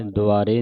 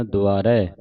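First: ਦੁਆਰੇ with a closed "e" ending; mispronunciation demo. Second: ਦੁਆਰੇ with an open "ai" ending; correct pronunciation. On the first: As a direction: say ਦੁਆਰੇ as "du-aa-ray", narrow final vowel. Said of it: "ਦੁਆਰੇ ਨਹੀਂ ਕਹਿਣਾ". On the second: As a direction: say ਦੁਆਰੇ as "du-aa-rai", wide final vowel. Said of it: "ਦਲਾਵਾਂ ਦੇ ਨਾਲ". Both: Shown as a demonstration.

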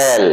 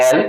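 First: "এল" with the tongue touching the palate; drawn-out "এল", tongue held on the l; corrected letter L. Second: Said in the usual way. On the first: Shown as a demonstration. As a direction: lift the tongue to the roof of the mouth for "এল". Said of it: "উপরে তালুকে স্পর্শ করে". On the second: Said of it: "এটাকে অনেকে বলে".

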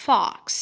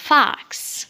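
First: "fox" with a rounded O; British FOX. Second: "fox" with a wide-open vowel; American FOX. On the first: Teacher contrasting British "fox", rounded-O pronunciation. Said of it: "إنما في البريتش". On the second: Teacher stressing American "fox", open-vowel pronunciation. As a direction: open it to "fahks". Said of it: "مفتوحة شوية". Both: Shown as a demonstration.

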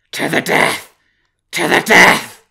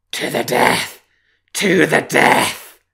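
First: Howled, high and very loud; wolf howl. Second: Howled, high, loud and slow; wolf howl. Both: Acted. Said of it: "howled the wolf".

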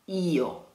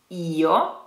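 First: "Io" stressed on the I. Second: "Io", I stressed. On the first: Teacher models "Io" with stress on the I. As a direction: lean on the I of "Io". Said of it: "stress on the I". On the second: Teacher repeats "Io" stressed on the I. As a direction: hit the I in "Io". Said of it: "Try it". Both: Shown as a demonstration.

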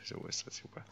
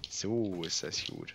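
First: Breathy whisper, no voice at all; soft pleased whisper under the breath. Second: Said in the usual way. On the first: Real, not acted. Pleased with a game move.

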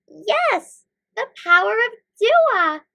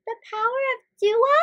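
First: High, loud, triumphant; excited exclamation. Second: High, quick, rising query; puzzled question. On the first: Both heroes seize on the idea, exclaiming. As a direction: exclaim it with delighted certainty. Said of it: "Mikael and Malaika exclaimed". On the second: Malaika queries the boss's advice, asking with surprise. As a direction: echo it back as a question. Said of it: "asked Malaika". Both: A narrator's reading.

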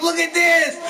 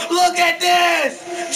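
First: Higher, punchy shout at normal speed; angry shout. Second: Drawn-out shout, each word stretched slowly; slow angry shout. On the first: Gamer pointing out double team, quick angry shout. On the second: Gamer repeating complaint to teammate, slow drawn shout. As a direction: drag the words out in disgust. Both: Real, not acted. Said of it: "I never raged like that before".

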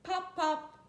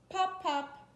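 Both takes have the same delivery.

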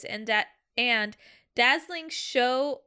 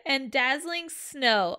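First: "show" said with an sh sound where "snow" was meant; stumbling on "da-" then "dazzling show"; slip of the tongue. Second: "snow" said clearly with an sn sound, slowly; careful corrected "dazzling snow"; corrected reading. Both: Real, not acted.

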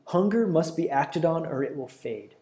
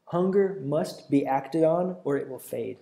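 First: Said in the usual way. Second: Slower, stress on "Hunger", weight on "fade"; deliberate restatement of the point; slow emphatic repeat. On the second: Shown as a demonstration. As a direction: drive the point home slowly.

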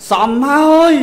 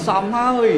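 First: A loud, higher "សមហើយ" snapped at the son; angry scolding. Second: Said in the usual way. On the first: Retold or imitated. Parent scolding a son who drinks all day, loud angry retort. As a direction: bark "សមហើយ" like a fed-up parent.

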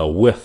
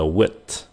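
First: With ending in a th whose air keeps flowing; with, air streaming past the tongue; breath continues. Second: Wit slow, the t stopped dead with no breath after; air cut off. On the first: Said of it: "With thì cái hơi nó còn ra tiếp tục". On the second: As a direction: wit with the air blocked at the end. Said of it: "thì các bạn phải chặn cái hơi nó lại". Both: Shown as a demonstration.

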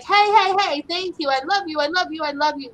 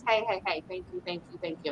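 First: High, loud, eager dog voice; happy dog showering thanks and love; excited big dog. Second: Hushed, breathy-soft thanks; quiet imitated dog murmuring thanks. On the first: Retold or imitated. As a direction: gush like an overjoyed big dog. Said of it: "this big dog that's like". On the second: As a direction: whisper the thanks gently. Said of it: "So that one is like".

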